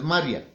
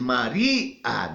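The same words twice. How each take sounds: First: The last two vowels merge into one syllable. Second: The last two vowels are split into two syllables. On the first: The speaker calls it wrong. "No es María" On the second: The speaker calls it right. "Es María, ¿no es cierto?"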